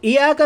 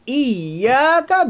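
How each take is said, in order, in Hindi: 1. 'y' की आवाज़ छोटी और एक है। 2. 'y' की आवाज़ खिंची हुई और दोहरी है। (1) "इय्याका नहीं पढ़ना" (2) "यहाँ पर तशदीद है"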